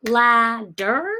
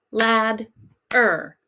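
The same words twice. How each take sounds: First: Ladder split as la... der, rising at the end; D with second syllable. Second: Ladder split as lad... er, falling at the end; D with first syllable. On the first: Teacher testing a syllable break, Ladder as la-der, questioning. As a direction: hold LA, then start DER on the D. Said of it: "if it should go with the second syllable". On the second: Teacher testing the other break, ladder as lad-er. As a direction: close LAD on the D, pause, then ER. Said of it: "if the D sound should go with the first". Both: Shown as a demonstration.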